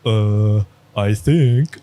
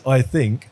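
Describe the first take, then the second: First: A hint of a hesitant student, trailing; lightly voiced unsure student, "I think" drawn out as a guess. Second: A light mocking echo of "I think", stress on "I". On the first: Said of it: "And his student goes". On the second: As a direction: repeat "I think" back at him as a rebuke. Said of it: "And he says".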